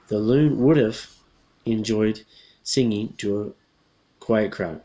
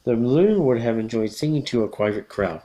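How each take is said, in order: First: 'Would have' is shortened into one contracted syllable. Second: 'Would have' is said as two full words.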